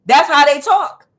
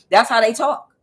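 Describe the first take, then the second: First: Loud emphatic repeat. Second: Said in the usual way. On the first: Real, not acted. Telling viewers how ancestors speak, loud and emphatic. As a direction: repeat it much louder and higher.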